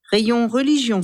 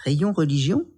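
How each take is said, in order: First: "Rayon religion" pitched up, ending as a statement; cashier's directions. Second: "Rayon religion" starting low, "religion" rising into a question; incredulous echo. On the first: Cashier directs a customer, "Rayon religion" stated with a final fall. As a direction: announce "Rayon religion" with a falling, factual close. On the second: Camille echoes the cashier, "Rayon religion" low then rising in disbelief. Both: A narrator's reading.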